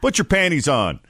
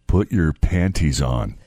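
First: The T in panties is soft or dropped. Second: The T in panties is clearly pronounced. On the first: It sounds ordinary. "that's one thing" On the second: It sounds creepy. "that's a completely different skin crawling"

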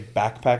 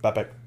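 First: The k sound in back is pronounced. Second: The k sound in back is dropped. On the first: "I never say backpack" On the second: "There's no CK, just backpack"

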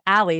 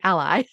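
First: It sounds like the girl's name Ally. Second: It sounds like the word ally, a supporter. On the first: It refers to a person's name. The speaker calls it wrong. "my daughter has a friend named Ally. So I immediately said Ally" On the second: It refers to being a supporter. The speaker calls it right. "it's about being an ally. So it has to be Ally"

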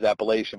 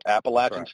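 First: It uses the Pennsylvania pronunciation of the word. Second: It uses the North Carolina pronunciation of the word. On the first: The speaker calls it wrong. "I'm from Pennsylvania, and up here, anytime we talk about that word, it's always Appalachian" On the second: The speaker calls it right. "So Appalachian right"

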